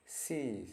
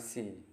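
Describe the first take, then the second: First: The vowel is held long. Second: The vowel is cut short. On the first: The speaker calls it right. "tanda titik dua itu agak panjang ya bunyinya" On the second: The speaker calls it wrong. "bukan sea"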